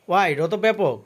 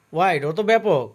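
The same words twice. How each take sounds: The two takes are said the same way.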